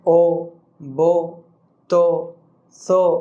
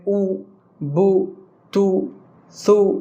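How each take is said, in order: First: The vowels are 'oh' sounds. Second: The vowels are 'oo' sounds. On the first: The speaker calls it wrong. "ये गलत है" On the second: The speaker calls it right. "पेश को जो पढ़ने का अंदाज है"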